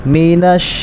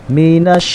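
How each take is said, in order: Both takes have the same delivery.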